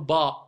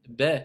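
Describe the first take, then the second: First: The vowel is a plain open a. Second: The vowel is short and sharp. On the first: The speaker calls it wrong. "vous n'allez pas dire on va voir maintenant aujourd'hui la lettre ba" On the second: The speaker calls it right. "C'est pas pareil"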